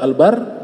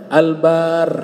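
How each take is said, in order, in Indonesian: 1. Vokal pada 'bar' diucapkan pendek. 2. Vokal pada 'bar' diucapkan panjang. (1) "Kalau al-bar jadinya daratan" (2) "banyak harus panjang"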